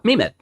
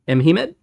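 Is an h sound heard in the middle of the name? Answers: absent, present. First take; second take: absent; present. First: No h sound is heard in the middle. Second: An h sound is heard in the middle. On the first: "where it was just me med" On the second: "So you're saying it's something like M he med?"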